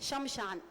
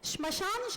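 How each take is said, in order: First: It is said in the common colloquial way. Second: It is said in the Sanskrit way. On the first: The speaker calls it wrong. "अत्यंत गलत उच्चारण" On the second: The speaker calls it right. "श्मशान शब्द होता है"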